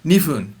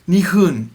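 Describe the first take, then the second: First: The middle consonant sounds fully like an F. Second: The middle consonant sounds closer to an H. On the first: "it's okay to say it completely like an F" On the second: "a little bit more to the H"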